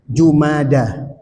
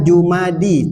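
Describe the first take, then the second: First: The word ends with an 'a' vowel. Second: The word ends with an 'i' vowel. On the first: The speaker calls it right. "tapi Jumada" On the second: The speaker calls it wrong. "Bukan Jumadi"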